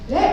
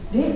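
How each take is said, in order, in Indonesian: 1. Kata itu diucapkan dengan suara keras. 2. Kata itu diucapkan dengan suara lembut. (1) "maka kita keraskan suara kita" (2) "dengan suara yang lembut"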